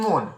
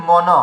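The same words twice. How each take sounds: First: মন as one syllable, mon; everyday Bengali pronunciation. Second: মন as two open syllables, maw-naw; correct literal pronunciation. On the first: Teacher showing what we say, Bengali pronunciation of মন. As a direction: say মন with an o and closed n. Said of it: "আমরা বলছি". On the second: Teacher giving the correct reading, literal pronunciation of মন. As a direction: open both vowels of মন, sounding the final ন. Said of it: "যদি সঠিক উচ্চারণ করা যায়". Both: Shown as a demonstration.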